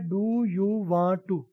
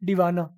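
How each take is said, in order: First: Each word is said separately and in full. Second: The words are blended into one reduced word.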